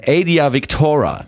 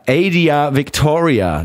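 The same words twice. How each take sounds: First: "Adia Victora" with no i before the final a; "Victora" in three syllables, Vic-to-ra; correct pronunciation. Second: "Adia Victoria" with the full "-ria" ending, slowly; "Victoria" said like the usual first name; wrong pronunciation. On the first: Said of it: "so ist es richtig". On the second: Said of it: "nein, Adia Victora, so ist es richtig". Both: Shown as a demonstration.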